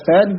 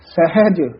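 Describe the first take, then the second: First: The h sound in the middle is faint. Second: The h sound in the middle is clear. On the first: The speaker calls it wrong. "ਹਾਹਾ ਜਿਹੜਾ ਹੈ ਉਹ ਫਿੱਕਾ ਜਿਹਾ ਪੈ ਜਾਂਦਾ" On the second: The speaker calls it right. "ਉਚਾਰਨ ਸਹੀ ਕਰਨਾ"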